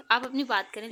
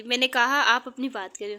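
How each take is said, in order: First: Gentle words with a firm order behind them; soft-spoken, in charge; a husband gently but firmly cutting his wife off; soft but commanding. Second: Louder, insisting on कहा; a husband firmly repeating his order to his wife. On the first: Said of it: "लहजे में नरमी थी मगर अंदाज हुक्मराना था". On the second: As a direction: repeat the order, now with an edge. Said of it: "अपनी बात दोहराई". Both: A narrator's reading.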